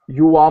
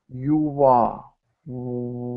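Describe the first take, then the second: First: The words are said quickly and run together. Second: The words are said slowly and clearly apart. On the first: "when I'm speaking fast, you can't tell" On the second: "if I speak slowly"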